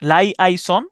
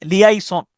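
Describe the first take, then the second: First: লাইআইসন starting with "lai"; alternative pronunciation. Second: লিয়াইসন starting with "li"; alternative pronunciation. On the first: Teacher allows either form, here saying "lai-ai-son". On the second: Teacher allows either form, here saying "li-ai-son". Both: Shown as a demonstration. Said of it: "দুইটা ভাবেই আপনি উচ্চারণটা".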